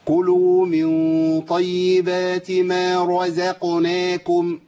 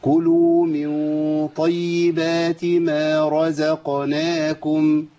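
First: Very slow chant, رزقناكم forced with tight lips; كلوا من طيبات ما رزقناكم pushed hard; strained wrong recitation. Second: Very slow, easy chant with رزقناكم relaxed; كلوا من طيبات ما رزقناكم flowing gently; effortless correct recitation. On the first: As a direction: show the effortful mistake. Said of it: "اسمعوا طب الخطأ الأول". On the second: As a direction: recite without any strain. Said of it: "بصوا بقى الصح كده". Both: Shown as a demonstration.

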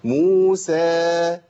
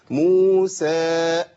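First: موسى with a smooth, full long vowel and no break; correct madd. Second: موسى with the long a cut off and a glottal stop added; with a break after the long vowel. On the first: Teacher showing the correct way to say موسى. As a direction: hold موسى out evenly without a hamza. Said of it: "لازم أقول إيه؟". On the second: Teacher showing the added hamza in موسى. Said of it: "همزة". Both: Shown as a demonstration.

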